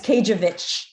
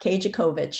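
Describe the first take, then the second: First: The middle 'co' syllable is left out. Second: An extra 'co' syllable is said in the middle. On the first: The speaker calls it right. "You don't pronounce the C O in the middle" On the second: The speaker calls it wrong. "not Kajakovich, like everybody wants to say"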